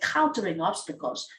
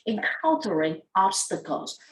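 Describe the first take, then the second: First: The first syllable 'en' is dropped. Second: The first syllable 'en' is fully said. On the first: The speaker calls it wrong. "You missed the first sound of the word" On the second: The speaker calls it right. "in fact, this word is"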